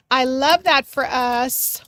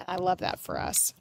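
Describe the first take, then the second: First: Louder, slow and drawn out; slow emphatic cheer. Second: Softer murmured I love that for us; quiet aside. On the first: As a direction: proclaim it to the whole group, savoring each word. Repeats phrase, second take proclaimed. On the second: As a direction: say it half to yourself. Repeats phrase, first take hushed. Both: Real, not acted.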